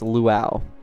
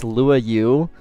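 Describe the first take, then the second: First: It is said as one blended word. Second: It is said as Lua plus a separate U. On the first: The speaker calls it right. "it's luau" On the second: The speaker calls it wrong. "lua then the u"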